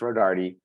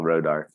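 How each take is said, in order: First: The name ends with a final vowel sound. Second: The name ends without a final vowel sound. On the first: The speaker calls it right. "it's Rodarty" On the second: The speaker calls it wrong. "they don't pronounce the E because they think it's silent"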